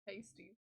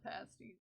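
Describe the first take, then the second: First: The first vowel sounds like in 'pay'. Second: The first vowel sounds like in 'pass'. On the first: It names a decorative covering worn on the body. The speaker calls it right. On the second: It names a kind of snack. The speaker calls it wrong.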